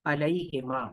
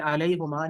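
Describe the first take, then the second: First: अलैहिमा with i after the h; changed vowel. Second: अलैहुमा with u after the h; unchanged vowel. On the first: Teacher giving the changed form, अलैहिमा with i. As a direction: say अलैहिमा with "hima" at the end. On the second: Teacher showing the rejected form, अलैहुमा with u. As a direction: say अलैहुमा with "huma" at the end. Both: Shown as a demonstration. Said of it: "तो ये अलैहुमा ना हुआ".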